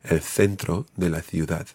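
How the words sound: It is said with a European Spanish accent. "as opposed to the Spanish pronunciation"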